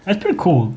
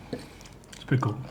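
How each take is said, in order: First: Said in the usual way. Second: Soft unvoiced whisper. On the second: Real, not acted. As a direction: breathe it almost silently. Repeats remark under breath.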